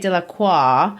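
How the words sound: The name is said with French pronunciation. This is how a French speaker would say the name. "like the French might"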